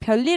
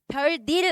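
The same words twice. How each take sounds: First: The middle consonant is an l sound. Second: The middle consonant is an n sound. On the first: The speaker calls it right. "유음화까지 일어나셔야죠" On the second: The speaker calls it wrong. "끝날 거야?"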